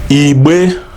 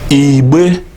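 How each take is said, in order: The two takes are said the same way.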